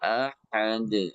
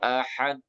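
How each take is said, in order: First: The final d is released with a bounce. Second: The final d is held without a release. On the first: The speaker calls it right. "dalnya pantulkan" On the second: The speaker calls it wrong. "pantulannya ditahan ... Itu salah juga ya"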